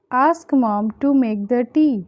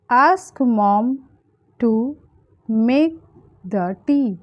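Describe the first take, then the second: First: Said in the usual way. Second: Long pauses around "to" and "make"; word by word. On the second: Shown as a demonstration. Teacher giving learners the English for a request, word by word. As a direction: dictate it piece by piece.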